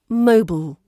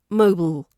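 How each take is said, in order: First: It sounds almost like one syllable. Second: It sounds almost like one syllable.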